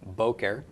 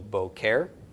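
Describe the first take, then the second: First: The stress is on the first syllable. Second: The stress is on the second syllable. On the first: The speaker calls it right. "the emphasis is on the first syllable" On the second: The speaker calls it wrong. "Or actually"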